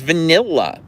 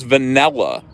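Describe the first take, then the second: First: Higher-pitched vanilla, short i as in NIL; imitated standard vanilla. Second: Vanilla said va-NELL-a. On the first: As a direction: mimic her vanilla, va-NIL-la. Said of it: "how do you pronounce it". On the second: Retold or imitated. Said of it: "There's no E in there".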